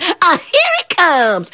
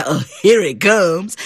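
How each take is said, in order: First: Put-on high, slow, dreading girl frog; tiny frog girl sighing at what's coming. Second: Put-on boy frog voice. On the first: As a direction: squeak it out with dread. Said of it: "The girl frog said". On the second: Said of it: "And the boy frog said".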